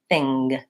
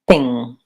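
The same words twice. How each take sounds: First: The word ends with an audible hard G. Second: The word ends in ng with no G. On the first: The speaker calls it wrong. "they might say this word as thing" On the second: The speaker calls it right. "they should be saying it as thing"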